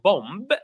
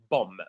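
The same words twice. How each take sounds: First: A B sound is heard at the end. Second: No B sound is heard at the end. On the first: The speaker calls it wrong. "It's not bomb" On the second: The speaker calls it right. "The last B is silent. So we say bomb"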